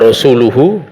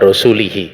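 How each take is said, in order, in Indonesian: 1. Kata itu berakhir dengan vokal u-hu. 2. Kata itu berakhir dengan vokal i-hi. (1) "harusnya bacaannya"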